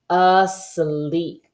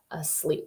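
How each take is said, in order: First: Said in the usual way. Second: "asleep" whispered softly after a plain take. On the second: Shown as a demonstration. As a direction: drop to a hush for "asleep". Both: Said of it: "here's our word that we saw".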